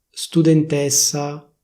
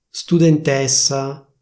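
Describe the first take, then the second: Both takes have the same delivery.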